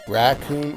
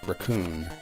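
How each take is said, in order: First: The stress is on the first syllable. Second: The stress is on the second syllable. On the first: "the emphasis on the rack" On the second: "or the coon"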